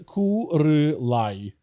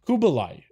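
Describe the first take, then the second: First: The name has an R sound in the middle. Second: The name has a B sound in the middle. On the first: The speaker calls it wrong. "No, it's not a re" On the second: The speaker calls it right. "It's a B, not an R"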